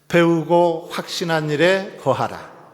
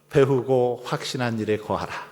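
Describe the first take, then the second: First: It is said louder. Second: It is said at normal volume.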